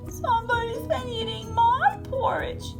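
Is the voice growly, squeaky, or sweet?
squeaky. The voice is high and squeaky. "he squeaked"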